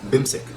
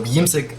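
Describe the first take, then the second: First: The elided form is said without the 'yi' syllable. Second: The full form is said with the 'yi' syllable.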